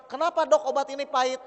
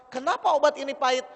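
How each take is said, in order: First: Whiny mock-angry gripe, higher and louder; patient whining at the doctor over bitter medicine; mock complaint to doctor. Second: Whiny mock-angry complaint, higher and louder; petulant patient griping at the medicine. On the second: Mother complaining about bitter medicine.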